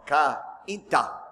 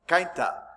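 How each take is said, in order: First: The 'ai' is said as two separate vowels, 'ka-in'. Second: The 'ai' is said as one gliding vowel, like 'kine'. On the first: This is the local way the name is said. The speaker calls it right. "No, it's Cainta" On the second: This is the English-style reading of the name. The speaker calls it wrong. "because that's how you say it in English. It would be a diphthong"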